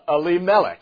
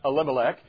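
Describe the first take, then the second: First: It is said the Hebrew way. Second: It is said the usual English way. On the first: The speaker calls it right. "It is Elimelech" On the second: The speaker calls it wrong. "how we normally pronounce it, is not Elimelech"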